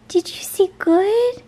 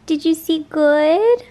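First: Much higher, slower cooing. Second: Higher, louder, slow coo. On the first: Owner repeating to her hamster in even higher baby talk. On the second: Owner asking her hamster, higher cooing baby talk. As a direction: coo the question warmly. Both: Real, not acted.

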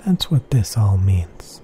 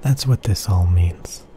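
Both takes have the same delivery.

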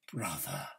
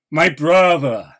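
First: A voiceless, grieving whisper. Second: MY hit louder, cried out in anguish; anguished cry. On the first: Poet mourning his brother, in a whisper. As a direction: breathe the word out in a hushed whisper. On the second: Poet mourning his brother, crying out louder. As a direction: break from the whisper into a cry. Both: Acted.

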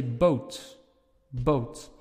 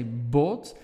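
First: "boat" with a gliding ou vowel; Dutch boat. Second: "boat" with a pure short o; Flemish boat. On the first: Teacher demos the Netherlands double O. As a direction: let the o slide to u. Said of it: "In the Netherlands, you'll say". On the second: Teacher demos the Belgian double O. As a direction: keep the o flat, no glide. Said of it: "In Belgium, we will say". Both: Shown as a demonstration.

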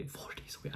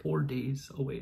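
First: Whispered repeat, breathy and hushed. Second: Said in the usual way. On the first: Real, not acted. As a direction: drop to a whisper.

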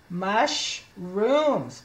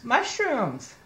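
First: Mushrooms split slowly into mush and rooms; sounding out. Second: Said in the usual way. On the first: Shown as a demonstration. Teacher decoding for children, Mushrooms slowly sounded out in two parts. Sounds out word, then blends it.

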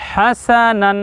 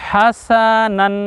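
First: হাসানান drawn out syllable by syllable, হা-সা-নান; slow careful recitation. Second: হাসানান stretched long, each syllable held; very slow recitation. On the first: Teacher chanting হাসানান slowly for viewers to repeat. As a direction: spell out হাসানান slowly for learners. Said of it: "একসঙ্গে বলুন". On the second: Quran teacher models হাসানান very slowly for viewers. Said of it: "উচ্চারণ কি?". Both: Shown as a demonstration.

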